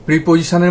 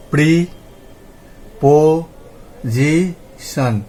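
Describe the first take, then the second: First: Said in the usual way. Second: প্রিপোজিশন very slowly as pri, po, zi, shon; syllable by syllable. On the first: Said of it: "মধ্যেই আমরা চারটে শব্দাংশ পেলাম". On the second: Shown as a demonstration. Teacher repeating the split for counting, প্রিপোজিশন in four separate syllables. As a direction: pause after every drawn-out syllable of প্রিপোজিশন. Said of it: "তাহলে আমরা কীরকম উচ্চারণ করছি".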